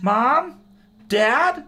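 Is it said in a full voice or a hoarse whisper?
full voice. It is said in a full, normal voice.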